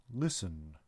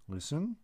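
First: Low, soft, settled repeat; calm tree creature. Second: Higher, puzzled echo of the word; surprised question. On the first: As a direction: answer gently and lower. The being repeats. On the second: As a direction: echo it back in disbelief. Lucas questions the being. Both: Acted.

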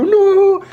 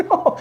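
First: A loud, very high cry of disbelief; shouted no. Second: Said in the usual way. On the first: Retold or imitated. Hearing mother-in-law has his passport, a loud disbelieving shout. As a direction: yell it out in total disbelief.

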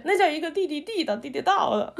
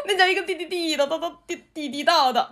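First: Playful Beijing tongue twister; stumbling Beijing-style 地道; Beijing accent. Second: Put-on Beijing accent. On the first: Retold or imitated. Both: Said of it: "特别喜欢学北京话".

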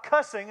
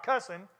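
First: Said in the usual way. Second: "cussing" with a Southern dropped g, ending in "-in"; Southern pronunciation. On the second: Shown as a demonstration. Preacher showing the congregation the Southern word, "cussing" said as Southern "cussin". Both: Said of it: "as we'd say in the South".

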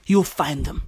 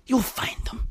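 First: Said in the usual way. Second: Softer whispered You'll find them; hushed conspiratorial whisper. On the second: Shown as a demonstration. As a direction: lean in and whisper it like a secret. Repeats line as whisper.

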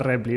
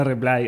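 First: Repli with a Spanish short i, REP-li; Spanish-style repli. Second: Reply with an English ending, ri-PLAI. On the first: Host naming the way he does not say it. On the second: Host explaining what he says in the States. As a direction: close reply on an English long i. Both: Shown as a demonstration. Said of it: "no digo repli".

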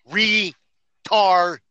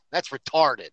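First: Retarded said louder and higher, drawn out; emphatic repeat. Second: Said in the usual way. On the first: Real, not acted. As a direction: hammer the word Retarded. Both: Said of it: "You didn't hear me?".

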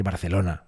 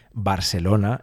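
First: Barcelona with a th, "bar-the-lona"; Castilian pronunciation. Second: Barcelona with an s, "bar-se-lona"; foreign pronunciation. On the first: Shown as a demonstration. Host gives the Spanish way, Barcelona as "bar-the-lona". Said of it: "cuando se dice Barcelona en español". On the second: Retold or imitated. Host imitates foreigners, Barcelona as "bar-se-lona". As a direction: soften the c of Barcelona to s. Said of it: "si dijesen Barcelona".

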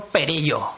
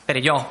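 First: Perello without the final-O accent; wrong stress. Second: Perello with the accent on the final O; corrected stress. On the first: Host misreading the guest's name off an article, wrong stress on Perello. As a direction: say Perello with the stress before the last syllable. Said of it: "Ya estoy viendo el acento". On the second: Host repeating the corrected name, Perello stressed on the O. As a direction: stress the last syllable of Perello. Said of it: "Tiene tilde en la O". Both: Real, not acted.

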